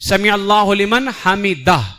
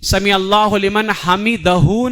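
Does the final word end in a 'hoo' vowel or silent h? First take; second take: silent h; hoo vowel. First: The final h is silent with no vowel. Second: The final h is followed by a hoo vowel. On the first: The speaker calls it right. "हा को साकिन पढ़ना" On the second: The speaker calls it wrong. "समी अल्लाहु लिमन हमिदहू नहीं"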